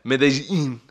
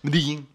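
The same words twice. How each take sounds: First: The local pronunciation is strongly exaggerated. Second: The local pronunciation is only slightly marked. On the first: The speaker calls it wrong. "That was even too much" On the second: The speaker calls it right. "That was it"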